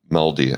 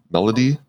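First: "Melody." said with a firm falling tune; settled fall. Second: "Melody?" asked with a clear rising tune; questioning rise. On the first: Host settles on the word, says "Melody." with a falling tune. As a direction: drop the end of "Melody." down, deciding on it. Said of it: "I think they call it a melody". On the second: Host unsure of the term, asks "Melody?" with a rising tune. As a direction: lift the end of "Melody?" up as if unsure of the word. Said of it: "Is that what they call that?". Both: Shown as a demonstration.

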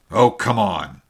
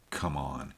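First: Loud, impatient outburst; cried out. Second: Soft, low murmur to oneself; little man muttering his master's words; whispered to himself. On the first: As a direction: call it out hard, done waiting. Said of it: "he cried at last". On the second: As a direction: barely voice it, brooding. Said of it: "he whispered to himself". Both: A narrator's reading.

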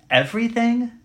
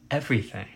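First: High, rising disbelief; incredulous question. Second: Quiet, falling affirmation; assured confirmation. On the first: Preacher voicing a listener who finds it extreme, incredulous. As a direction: question it sharply, pitched way up. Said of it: "Now that sounds extreme, doesn't it?". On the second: Preacher answering the doubter, quiet assurance. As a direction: answer the doubt softly and with finality. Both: Acted.

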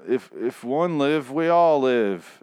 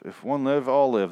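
First: Slow, drawn-out solemn oath. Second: Said in the usual way. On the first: Retold or imitated. Reciting the show's oath slowly, with mock solemnity. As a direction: intone it like a sacred vow.

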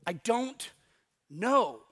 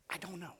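First: "I don't", a pause, then "know" firmly; weighted KNOW. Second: Very soft "I don't know", unbroken; hushed admission. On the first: Preacher drives the phrase home, pausing before a firm "know". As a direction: split "I don't know" before a strong final "know". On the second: Preacher admits the answer to the congregation, "I don't know" very hushed. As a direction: drop "I don't know" to almost nothing. Repeats phrase very softly. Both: Shown as a demonstration.

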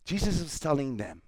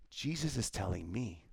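First: Said in the usual way. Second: Much softer, drawn inward; quietly making it personal. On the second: Shown as a demonstration. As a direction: bring it close, like a confession.

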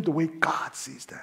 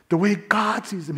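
First: Slow, soft, fading to a whisper; hushed emphasis. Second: Said in the usual way. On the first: Real, not acted. Preacher landing his point to the congregation, hushed. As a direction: let the phrase sink away almost voiceless.

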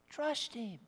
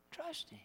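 First: Soft plea. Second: High, much softer repeat; a last hushed plea to trust; fading plea. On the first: Soft repeated exhortation. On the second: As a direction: let it fade almost to nothing. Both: Real, not acted.

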